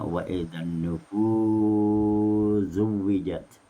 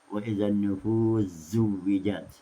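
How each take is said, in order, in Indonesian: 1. Vokal sebelum z yang digabung dibaca panjang. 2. Vokal sebelum z yang digabung dibaca pendek. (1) "enam harakat" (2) "dua harakat"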